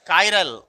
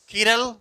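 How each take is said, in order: First: The first syllable sounds like kai. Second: The first syllable sounds like kee. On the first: "इसका नाम क्या है? कायरल।" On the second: "कुछ लोग कीरल भी बोलता है"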